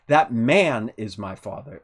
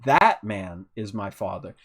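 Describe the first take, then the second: First: The stress falls on the word 'man'. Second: The stress falls on the word 'that'. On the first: The person who is the father is a man. "so this one is a man" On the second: This specific person, not another, is the father. "the emphasis goes to I'm pointing out one specific person"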